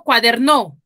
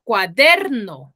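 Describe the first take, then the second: First: "cuaderno" wrongly stressed on the last syllable, cua-der-NÓ; stress on final NO. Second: "cuaderno" with the stress on DER, the usual way. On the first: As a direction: push the voice onto NO in "cuaderno". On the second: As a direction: stretch and punch DER in "cuaderno". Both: Shown as a demonstration. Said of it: "¿yo cómo digo?".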